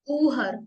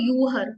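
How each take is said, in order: First: The word begins with a plain 'oo' sound. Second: The word begins with a 'yoo' sound. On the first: The speaker calls it right. "ऊहर नॉट यूहर" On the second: The speaker calls it wrong. "Not यूहर"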